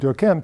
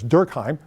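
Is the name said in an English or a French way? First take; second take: French; English. First: The name is said with French sounds. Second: The name is said with English sounds. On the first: It avoids sounding German. "his original version was something like Durkheim to play down the Germanic connotations" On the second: It is an adapted form for English listeners. "I'm going to anglicize it for our purposes as Durkheim"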